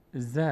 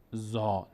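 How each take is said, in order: First: ز with a short, thin "za", not rounded; light vowel. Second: زا with a full, dark, back "aa"; heavy vowel. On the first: Teacher showing students the correct reading, light vowel on ز. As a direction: say ز light, with an open front "a". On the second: Teacher showing the mistake to avoid, heavy vowel on زا. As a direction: say زا heavy, like "zaw". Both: Shown as a demonstration.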